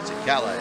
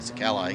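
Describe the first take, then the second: First: It is said in a dramatic put-on voice. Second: It is said in a plain, ordinary voice. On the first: The speaker calls it right. "You got to say it like that too" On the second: The speaker calls it wrong. "You can't just say"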